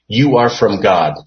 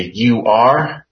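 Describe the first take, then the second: First: Said in the usual way. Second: "you are" stressed, rising on "are"; "you are" pulled out and leaned on; emphatic you are. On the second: Shown as a demonstration. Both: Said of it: "is emphatic".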